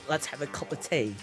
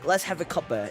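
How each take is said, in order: First: 'Cup of tea' is said in full. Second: 'Cup of' is shortened to 'cuppa'. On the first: "instead of like" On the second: "we actually shorten it into a cuppa"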